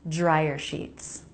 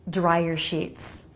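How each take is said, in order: No difference in how they are said.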